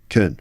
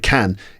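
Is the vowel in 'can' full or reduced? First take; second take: reduced; full. First: The vowel is reduced to a weak schwa. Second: The vowel is full and clear, like 'can'. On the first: "In the middle of the sentence, it's pronounced with its weak form" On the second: "At the end of a sentence, it's pronounced with a full pronunciation"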